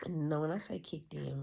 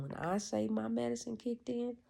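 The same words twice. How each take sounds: First: Said in the usual way. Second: Medicine lifted high and louder; stress on medicine. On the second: Shown as a demonstration. Correcting himself, he stresses "medicine" high and loud. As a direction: lean hard into "medicine".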